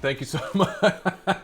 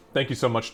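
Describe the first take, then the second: First: Laughing through the thanks; thanks broken by a laugh. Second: Said in the usual way. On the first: Real, not acted.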